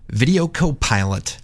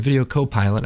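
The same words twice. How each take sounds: First: It is said in a deep movie-trailer voice. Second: It is said in his normal speaking voice.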